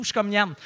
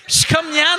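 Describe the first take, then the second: First: Said in the usual way. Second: Loud, high and excited; excited shout. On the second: Real, not acted. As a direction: shout it out gleefully. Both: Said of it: "Je chie partout".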